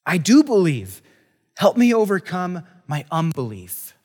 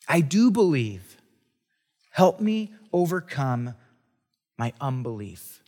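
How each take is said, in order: First: Louder desperate cry to be heard; father crying out to Jesus, loud and desperate; exclaiming. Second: Slow pleading. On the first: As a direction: plead it out, a father at the end of his rope. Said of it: "the boy's father exclaimed". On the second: Rereading the father's plea slowly. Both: Acted.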